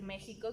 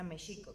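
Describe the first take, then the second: First: The word uses the Spanish-style middle consonant. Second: The word uses the Indigenous-style middle consonant. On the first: It reflects the colonial Spanish way of speaking. The speaker calls it wrong. "que es con el sonido pues español" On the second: It reflects how the original peoples said it. The speaker calls it right. "como lo pronunciaban los pueblos de Anáhuac"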